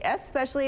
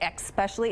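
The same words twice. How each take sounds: First: The word begins with an 'es' sound. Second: The word begins with an 'ex' sound. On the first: The speaker calls it right. "it's supposed to be especially" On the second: The speaker calls it wrong. "when people use an X instead of the S"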